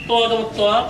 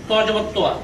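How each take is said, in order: No difference in how they are said.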